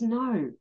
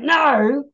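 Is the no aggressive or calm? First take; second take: calm; aggressive. First: It is said calmly and plainly. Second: It is said aggressively, in your face.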